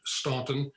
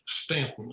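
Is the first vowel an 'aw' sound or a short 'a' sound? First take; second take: aw; short a. First: The first vowel sounds like 'aw' in 'saw'. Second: The first vowel sounds like 'a' in 'cat'. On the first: This is the common reading of the spelling. The speaker calls it wrong. "many people pronounce it Staunton" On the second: This is how the family itself says it. The speaker calls it right. "these Stantons pronounce it Stanton"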